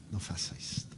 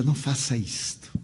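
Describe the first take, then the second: First: "não faça isto" breathed in a whisper, much softer; whispered plea. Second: Said in the usual way. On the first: Retold or imitated. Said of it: "Eu digo". ("não faça isto" sussurrado, em súplica) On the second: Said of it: "E dizia".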